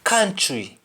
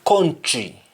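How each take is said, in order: First: "Country" said KAN-tree, with "ah"; English-style "Country", open "ah" first; English pronunciation. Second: "country" said KON-tree, with O; Jamaican pronunciation. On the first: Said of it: "in English". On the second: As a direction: say "country" the Patois way, as kontri. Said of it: "will be country". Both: Shown as a demonstration.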